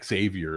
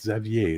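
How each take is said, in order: First: It is said the usual American way. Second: It is said the non-American way. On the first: The speaker calls it wrong. "you guys always say Xavier" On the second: The speaker calls it right. "no, it's Xavier"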